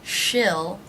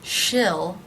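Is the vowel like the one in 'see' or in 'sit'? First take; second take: sit; sit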